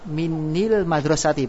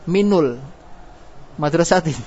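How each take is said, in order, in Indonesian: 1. Vokal penyambung setelah min adalah i. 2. Vokal penyambung setelah min adalah u. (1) "kalau dibaca kasro menjadi berat" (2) "Kenapa tidak dibaca doma"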